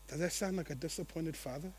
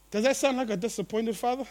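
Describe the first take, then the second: First: Much softer and lower, intimate question. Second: Said in the usual way. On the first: Shown as a demonstration. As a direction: ask it gently, almost to yourself.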